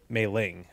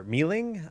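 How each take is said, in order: First: "Mei" said like the month May; pronounced MAY-ling. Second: "Mei" said like the word me, questioning; pronounced MEE-ling. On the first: Streamer trying one pronunciation of a hero's name, "Mei" as MAY. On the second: Streamer unsure of a hero's name, offering "Mei" as MEE. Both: Shown as a demonstration. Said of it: "which the proper pronunciation is".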